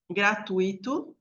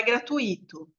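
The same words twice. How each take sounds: First: "Gratuito" with stress on TU, the ui as one syllable; pronúncia certa. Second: "gratuito" with stress on the I, gra-tu-Í-to; pronúncia errada. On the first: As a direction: say "Gratuito" as gra-TUI-to, gliding over the i. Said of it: "Gratuito não é gratuito". ("Gratuito" como gra-TÚI-to, com ditongo) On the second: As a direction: break the ui of "gratuito" and hit the i. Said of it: "ia ter um acento no I". ("gratuito" como gra-tu-Í-to, com hiato) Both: Shown as a demonstration.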